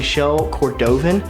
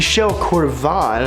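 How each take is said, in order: First: The name is pronounced in a plain, ordinary way. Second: The name is pronounced in a fancier-sounding way. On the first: The speaker calls it wrong. "I've been saying it wrong the whole time" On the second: The speaker calls it right. "I sound much fancier now"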